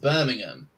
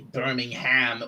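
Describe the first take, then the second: First: Birmingham is said short, with syllables reduced. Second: Birmingham is said with every syllable pronounced fully. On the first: The speaker calls it right. "when it's just" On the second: The speaker calls it wrong. "some say"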